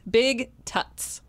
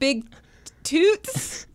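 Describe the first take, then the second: First: The second word has a short 'uh' vowel. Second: The second word has a long 'oo' vowel.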